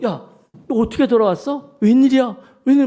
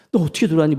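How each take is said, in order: First: Retold cry of surprise, higher and louder; mother stunned to see her daughter come home; startled mother. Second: Said in the usual way. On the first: Mother startled as the runaway daughter walks in, exclaiming. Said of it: "엄마가 깜짝 놀라가지고". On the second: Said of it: "막 안겼대".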